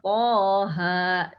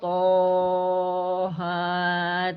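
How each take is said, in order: First: Each vowel is held for a short two beats. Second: Every vowel is drawn out long. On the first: The speaker calls it right. "dibacanya cukup dua harokat saja masing-masing hurufnya" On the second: The speaker calls it wrong. "Atau panjang semua"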